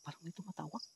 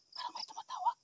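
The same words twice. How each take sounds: First: Said in the usual way. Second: "Parang may tumatawag" breathed as a voiceless whisper. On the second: Real, not acted. Hearing a call in the dark, he whispers. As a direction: hush so whatever calls won't hear. Repeats line, then whispers it.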